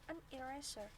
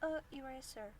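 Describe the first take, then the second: First: An n sound links the two words. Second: Two vowels meet with no n sound between. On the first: The speaker calls it right. "Jadi kita membacanya an eraser" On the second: The speaker calls it wrong. "sama-sama vokal ketemu vokal"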